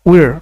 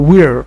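First: It ends with a clear r sound. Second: The same.

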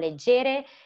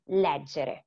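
First: The stress is on the second syllable. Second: The stress is on the first syllable. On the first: The speaker calls it wrong. "it's not leggere" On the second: The speaker calls it right. "but it's leggere"

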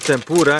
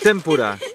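First: The word is said in a non-Japanese way. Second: The word is said the Japanese way. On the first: The speaker calls it wrong. "But it's not tempura" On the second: The speaker calls it right. "it's tempura. Japanese is tempura"

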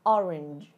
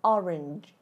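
No difference in how they are said.

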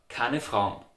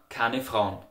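Both takes have the same delivery.

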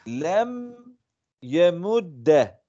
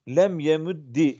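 First: The last word ends with an a vowel. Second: The last word ends with an i vowel. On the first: The lightest vowel was chosen. "Fetha ehafful hareket olduğundan dolayı okudum" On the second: A silent letter given a vowel takes i. "kesra ile hareketlendirilir kaidesine istinaden"

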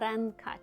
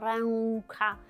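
First: A clear n sound is heard before the k. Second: No clear n sound is heard before the k. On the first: The speaker calls it right. "ми кажемо ренка" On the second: The speaker calls it wrong. "Ми не кажемо ренка"

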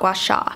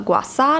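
First: The second word begins with an sh sound. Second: The second word begins with an s sound. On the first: The speaker calls it wrong. "not gua sha" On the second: The speaker calls it right. "it's not pronounced sha, it's sa"

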